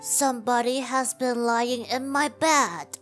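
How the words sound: It is said in a medium, middle-sized voice.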